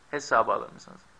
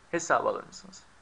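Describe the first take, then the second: The two takes are said the same way.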